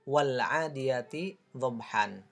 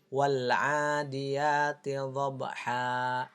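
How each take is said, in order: First: The last word ends with an n sound. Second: The last word ends in a long a. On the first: This is how it is written. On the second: This is how it is read when stopping. "cara membacanya menjadi"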